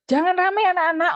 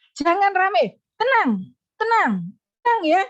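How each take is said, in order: First: Higher, louder call to a noisy class; raised classroom call. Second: Higher, louder "Jangan rame" followed at once by repeated falling "tenang"; raised soothing call. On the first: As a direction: hush the class with only a bare "jangan rame". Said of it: "kalau kalian ngajar". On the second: Teacher calming noisy pupils, raised but soothing. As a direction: stack the calm words right after the warning. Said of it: "segera tumpuk". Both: Shown as a demonstration.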